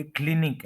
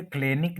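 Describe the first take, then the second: First: क्लिनिक with a short "i", "KLIN-ik"; correct pronunciation. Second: क्लिनिक said "KLAY-nik", long "ay"; common mispronunciation. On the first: Teacher correcting learners' common error, careful pronunciation. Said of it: "ये क्लिनिक है". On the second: Teacher showing the form to avoid, mispronounced. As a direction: give क्लिनिक an "ay" vowel in the first syllable. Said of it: "ये क्लिनिक नहीं है". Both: Shown as a demonstration.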